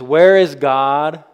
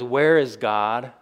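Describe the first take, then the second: First: It is said loudly and sternly. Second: It is said at a normal, calm volume.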